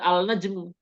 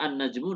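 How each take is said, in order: First: The L is pronounced before the N. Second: The L is absorbed into a doubled N. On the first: The speaker calls it wrong. "Nggak boleh dibaca al-najmu" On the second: The speaker calls it right. "lamnya tidak terbaca, tapi langsung masuk ke huruf tersebut"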